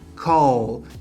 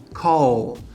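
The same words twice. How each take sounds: Both takes have the same delivery.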